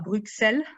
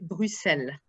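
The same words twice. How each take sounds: First: It uses the pronunciation particular to France. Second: It uses the internationally recognized pronunciation. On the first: The speaker calls it wrong. "ne se prononce pas Bruxelles" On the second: The speaker calls it right. "mais Bruxelles"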